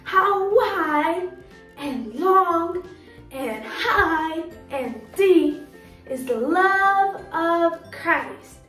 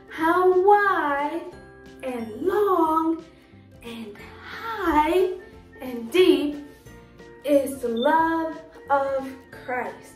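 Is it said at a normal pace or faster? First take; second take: faster; normal pace. First: It is said a little faster. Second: It is said at a normal pace.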